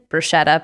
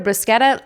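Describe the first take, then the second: First: The middle consonant is not a k sound. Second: The middle consonant is a k sound. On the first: "pronounce it incorrectly" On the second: "I'll say the k"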